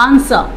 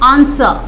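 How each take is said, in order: The two takes are said the same way.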